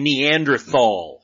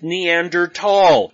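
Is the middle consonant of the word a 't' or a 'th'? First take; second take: th; t. First: The middle consonant is a 'th' sound. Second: The middle consonant is a plain 't' sound. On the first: The speaker calls it wrong. "these are the same people who say Neanderthal" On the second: The speaker calls it right. "the T and the H in Neanderthal are together, but they're not pronounced together"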